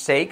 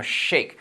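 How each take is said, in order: First: "shake" as "seik", rising; S instead of SH. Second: "shake" with a full hushing SH; SH sound. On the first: Teacher shows the mistake, S sound in "shake". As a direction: say "shake" with a plain S. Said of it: "No es shake". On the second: Teacher gives the correction, strong SH in "shake". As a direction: say "shake" starting on "shhh". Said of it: "sino shake". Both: Shown as a demonstration.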